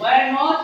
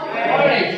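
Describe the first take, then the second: First: Said in the usual way. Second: "weren't" run together as a short form; contracted pronunciation. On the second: Shown as a demonstration. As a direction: say "weren't" as the contraction of were not. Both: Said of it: "উচ্চারণগুলি কিভাবে তোমরা উচ্চারণ করবা".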